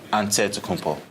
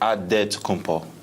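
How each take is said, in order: First: An NT cluster follows the first vowel. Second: A plain D follows the first vowel. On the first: This is the Greek way of saying the name. "in the Greek way, you say it with the N T" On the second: This is the Nigerian way of saying the name. "In the Nigerian way, you gotta say it with a D"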